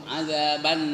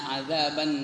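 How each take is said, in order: Both takes have the same delivery.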